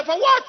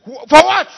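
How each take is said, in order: First: Much higher, incredulous repeat of for what; repeated question. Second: Loud, indignant demand for what; shouted question. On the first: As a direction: throw it up high in disbelief. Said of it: "I said". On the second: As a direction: bark out the question at the crowd. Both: Acted.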